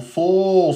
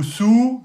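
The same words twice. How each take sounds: First: « so » avec un s emphatique et o ouvert, voyelle longue. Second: « sou » avec un s léger, non emphatique, son ou; sou fautif. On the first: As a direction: dites « so » lourd, emphatique, prolongé. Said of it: "et on a nous, so". (« so » prononcé emphatique et long) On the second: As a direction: faute à montrer : « sou » léger et fin. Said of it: "Et si vous dites nous, sou". (« sou » dit comme avec la lettre sin) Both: Shown as a demonstration.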